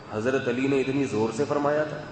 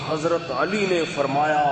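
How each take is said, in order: First: Said in the usual way. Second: Drawn-out, half-hearted imitation of shouting; mock preacher's yell. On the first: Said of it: "میرا دل چاہ رہا تھا میں ان سے جا کے کہوں". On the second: Preacher shouting into the loudspeaker at his sermon, mock yell, drawn out. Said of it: "بہت چیخ کے".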